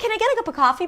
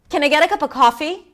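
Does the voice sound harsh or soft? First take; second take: soft; harsh. First: The voice is soft, light and polite. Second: The voice is lower, stronger and harsh. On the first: The request is calm and friendly. "that softness that we have" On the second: The speaker is a little angry and frustrated. "The pitch is lower and your voice is a little different. It's more harsh"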